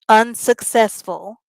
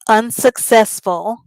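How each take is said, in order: First: All syllables of the word are clearly pronounced. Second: All syllables of the word are clearly pronounced.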